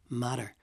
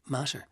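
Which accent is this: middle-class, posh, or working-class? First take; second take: middle-class; posh. First: The T is a quick tap. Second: The T is pronounced in a very posh way. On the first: "a middle class one might tap the two T's" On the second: "a very posh accent might say matter"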